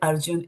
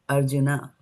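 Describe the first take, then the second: First: The name ends on the consonant n. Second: The name ends on an added a vowel. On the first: This is the Hindi way of saying it. "if you're coming from U P or any parts of the north of India" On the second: This is the Sanskrit way of saying it. "in Sanskrit, Arjun is Arjuna"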